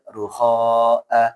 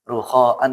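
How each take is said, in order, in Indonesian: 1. Kata ini berakhir dengan vokal panjang. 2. Kata ini berakhir dengan bunyi n. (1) "dibaca ruhoa kalau berhenti" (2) "kalau sambung"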